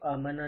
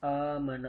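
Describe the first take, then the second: First: The first vowel is short. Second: The first vowel is drawn out long. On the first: The speaker calls it wrong. "इसको आमना नहीं पढ़ना" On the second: The speaker calls it right. "ताकि फ़र्क वाज़िया हो कि आप खड़ी ज़बर पढ़ रहे हैं"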